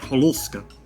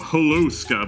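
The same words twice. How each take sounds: First: It is said with a Slavic, throaty sound. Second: It is said with a plain English sound. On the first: "my my throat immediately closed like" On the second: "you would think I would be like"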